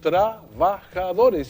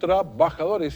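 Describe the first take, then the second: First: The middle b is soft, lips barely touching. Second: The middle b is a hard stop, lips closed. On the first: This is how people normally say it. The speaker calls it right. "suena normalísimo. Y está con V" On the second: People do not really say it this way. The speaker calls it wrong. "no decimos"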